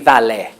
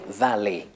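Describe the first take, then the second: First: The final vowel has the older pronunciation. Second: The final vowel has the modern pronunciation. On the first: This is how it was said in the past. "would be valle" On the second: This is how it is said today. "But today, valley"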